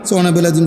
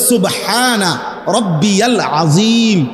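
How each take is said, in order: First: The middle word is clipped and slurred together. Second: Every syllable of the middle word is pronounced fully. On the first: The speaker calls it wrong. "আপনি এখন সুবহানা বিল আযীম" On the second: The speaker calls it right. "শব্দ হইল"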